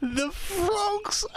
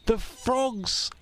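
First: High tearful whimper; tearful cry. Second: Plain. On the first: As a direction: whimper it near tears. Tearful repeat. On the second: Repeated, second cried out. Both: Acted.

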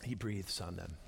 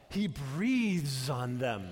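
First: Hushed, low; a gentle breath of a line; soft breathy hush. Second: Slow reverent breath; slow, breathy emphasis. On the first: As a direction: say it softly, almost breathing it. Quiet breath demonstration. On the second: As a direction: draw out breathes very slowly. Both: Shown as a demonstration.

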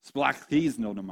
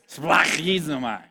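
First: "Splachthiznomai" said slowly, syllable by syllable; careful slow "Splachthiznomai"; Greek word. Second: "Splachthiznomai" slow and louder with a throaty, phlegmy kh; throat-clearing "Splachthiznomai" for laughs; phlegmy Greek. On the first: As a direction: sound out "Splachthiznomai" for the crowd to repeat. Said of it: "Everyone say". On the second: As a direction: hawk the kh in "Splachthiznomai". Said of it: "Say it with the most phlegm you got". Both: Shown as a demonstration.

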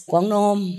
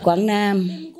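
First: Put-on "Quảng Nam" with the local Quảng Nam accent, rounded "kwong nom"; teasing Quảng Nam accent on "Quảng Nam", vowels shifted to "o". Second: "Quảng Nam" said the southern way, open "kwang nam"; plain southern "Quảng Nam", a flat "nam". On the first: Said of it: "in his area, it's a". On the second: Shown as a demonstration. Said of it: "we say".

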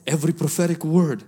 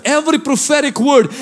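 First: Said in the usual way. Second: "Every" hit high and loud, preached word by word. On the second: Shown as a demonstration. Pastor to the congregation, "Every prophetic word" preached high and loud.

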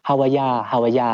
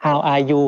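First: "how are ya" run together, ending in "ya"; Aussie slurred reduction. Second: Said in the usual way. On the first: Retold or imitated. Newcomer showing what confused him, imitated Aussie run-together greeting. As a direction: imitate Aussies merging "how are ya" into one word, "howaya". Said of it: "how are you เขาจะ". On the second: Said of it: "เขาจะ how are ya".

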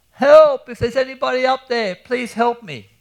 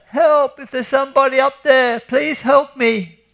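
First: Calling for help. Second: Yelling for help. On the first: Trapped man in a sand pit shouting up for help, desperate high shout. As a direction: yell for rescue with everything you have. Ahmed stuck calling from hole. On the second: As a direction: scream up the hole, dragging out the plea. Mabruk stuck yells from hole. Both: Acted.

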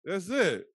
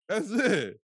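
First: Excited. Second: More excited. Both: Acted. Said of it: "this man created caller I D".

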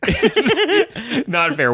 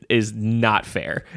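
First: Breaking into laughter, high and slow; laughing. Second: Said in the usual way. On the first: Real, not acted. Comparing a classic film to a Burt Reynolds film, laughing. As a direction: laugh the words out at the silly comparison.

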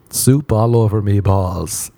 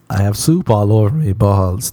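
First: Drawn out. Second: Said in the usual way. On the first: Shown as a demonstration.

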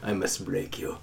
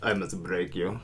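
First: Deep, quiet Drago growl; low menacing Russian threat; Russian accent. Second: Deep, hushed Russian menace; Russian accent. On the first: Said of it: "Just try this, try this once". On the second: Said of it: "very different than your normal accent". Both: Shown as a demonstration.

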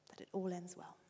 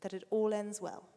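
First: That it all ends well repeated much softer and gentler; softer echo. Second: Said in the usual way. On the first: Shown as a demonstration. Father repeating the promise softly. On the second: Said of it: "and you'll see".

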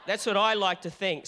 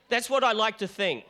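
First: Louder, with I leaned on; that's what I like to think, with I stressed. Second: Louder, with what leaned on; that's WHAT I like to think; stress on what. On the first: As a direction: push the word I, the rest following. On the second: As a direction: push the word what, the rest following. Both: Shown as a demonstration.

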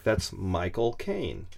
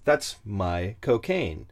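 First: Slow, drawn-out British vowels on Michael Caine; mock British accent demo. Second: Slow, lowered British drawl on cocaine; mock British accent demo. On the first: Teaching a friend a British accent, slow and hammy. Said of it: "This is how you start". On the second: Showing how my cocaine sounds British, slow and hammy. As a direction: stretch out cocaine like a Londoner. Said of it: "Combine those two". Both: Shown as a demonstration.

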